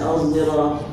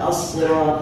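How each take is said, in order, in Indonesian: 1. Awalnya berupa bunyi z yang bersuara. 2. Awalnya berupa bunyi s emfatis yang berat. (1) "dibaca uz" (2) "Dibaca shad"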